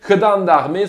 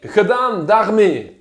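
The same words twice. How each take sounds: First: "gedaan daarmee" hit loud and quick as a slogan; punchy Dutch phrase. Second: "gedaan daarmee" drawn out slowly, a little louder; slow Dutch demo. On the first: Politician delivering the headline's punchline, loud and firm. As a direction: bang out "gedaan daarmee" like a rallying cry. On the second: Teaching viewers the Dutch phrase, slow and deliberate. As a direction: lay out "gedaan daarmee" syllable by syllable. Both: Shown as a demonstration. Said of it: "on va faire un petit cours de néerlandais".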